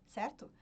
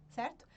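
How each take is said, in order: Both takes have the same delivery.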